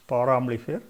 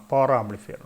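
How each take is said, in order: Both takes have the same delivery.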